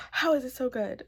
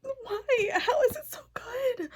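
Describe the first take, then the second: First: Said in the usual way. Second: Much higher, crying whisper; teary disbelief. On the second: Real, not acted. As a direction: plead through happy tears. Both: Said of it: "Why am I crying".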